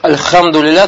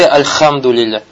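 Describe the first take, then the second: First: The h is a breathy sound from the throat. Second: The h is a raspy sound like Russian kh. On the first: The speaker calls it right. "потому что там у тебя буква «Ха»" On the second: The speaker calls it wrong. "не говори «Альхамдулилля», как, например, вот у нас"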